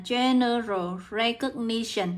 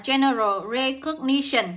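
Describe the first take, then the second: First: "general recognition" said at half speed; slow dictation. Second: Said in the usual way. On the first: Shown as a demonstration. Teacher repeating the phrase for students to note down, slow dictation. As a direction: draw out "general recognition" slowly for note-taking.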